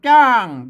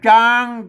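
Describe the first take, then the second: First: The syllable has a falling tone. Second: The syllable has a mid level tone. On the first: "เสียงโท" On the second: "เสียงสมัญ"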